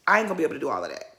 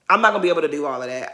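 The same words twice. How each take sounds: First: Low mumbled version. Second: Quick self-correction, fast, "I'm not" in place of "ain't"; rushed correction. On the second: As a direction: rattle off the fixed line fast. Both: Shown as a demonstration.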